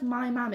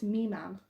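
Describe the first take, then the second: First: "my mam" with a full "eye" vowel in my; non-Yorkshire "my". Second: "me mam" with "my" reduced to "me"; Yorkshire "me". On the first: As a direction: say "my mam" with my rhyming with "by". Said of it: "No one says my mam". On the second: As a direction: say "me mam" Yorkshire-style, me rhyming with "see". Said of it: "it's me mam". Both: Shown as a demonstration.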